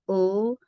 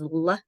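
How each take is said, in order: First: The sound is said on its own, no vowel. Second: The sound has an extra vowel added after it. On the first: The speaker calls it right. "We want ul" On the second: The speaker calls it wrong. "we don't want that"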